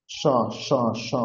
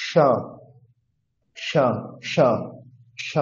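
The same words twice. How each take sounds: First: স as "sha", tongue touching the palate; palatal sh sound. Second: স as "ṣha", tongue curled to the roof; retroflex sh sound. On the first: Teacher demonstrates talabya স to learners, palatal sh. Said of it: "তালুকে স্পর্শ করে". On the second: Teacher demonstrates murdha স to learners, retroflex sh. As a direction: curl the tongue back for a retroflex স. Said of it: "এর উচ্চারণ মূর্ধা থেকে হবে". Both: Shown as a demonstration.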